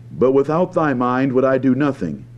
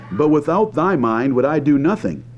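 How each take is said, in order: Both takes have the same delivery.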